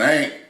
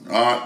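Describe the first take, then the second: First: The vowel rhymes with 'paint'. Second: The vowel is an open 'ah' sound. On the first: An ordinary relative, a parent's sister. "if you ever experience an ain't" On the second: A relative who thinks herself better off than others. "saying it a little different way"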